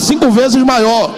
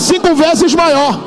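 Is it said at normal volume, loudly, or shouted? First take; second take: loudly; shouted. First: It is said loudly. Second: It is shouted.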